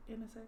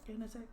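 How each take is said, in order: Both takes have the same delivery.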